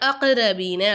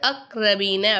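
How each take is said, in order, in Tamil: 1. k ஒலி துள்ளலுடன் விடப்படும். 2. k ஒலி துள்ளல் இல்லாமல் அப்படியே நின்றுவிடும். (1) "காஃபை அசைச்சி சொல்லணும்" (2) "சொல்லாமல்"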